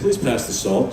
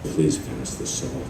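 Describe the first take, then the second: First: The line is spoken in a normal voice. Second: The line is spoken in a whisper. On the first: The speaker calls it right. "just in a normal voice, don't whisper" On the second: The speaker calls it wrong. "they just whisper the whole time, like"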